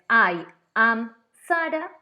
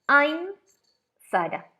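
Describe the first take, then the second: First: I am is said as two separate words. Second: I am is contracted into one syllable. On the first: "en el primer caso" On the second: "en el segundo caso es I'm Sara"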